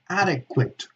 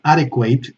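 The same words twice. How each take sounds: First: The final syllable has a schwa. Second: The final syllable has a diphthong. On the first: The speaker calls it right. "it's adequate" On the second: The speaker calls it wrong. "so it's not adequate"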